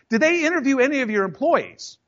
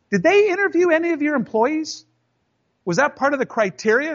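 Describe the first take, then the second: First: Repeated challenge. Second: Raised-pitch pointed challenge to the boss; pointed question. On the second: Employee confronting his boss about the award, high and needling. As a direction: ask it high and needling, like a trap. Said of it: "and I go". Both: Retold or imitated.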